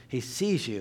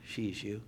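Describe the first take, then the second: First: Said in the usual way. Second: "sees" slurred with an sh sound; slurred mispronunciation. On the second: Shown as a demonstration. Preacher mocking his own slip, "sees" said as "shees".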